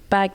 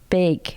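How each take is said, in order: First: It is said with a plain, ordinary accent. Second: It is said with a Minnesota-style vowel. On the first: "don't say bag" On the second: "They say they go big"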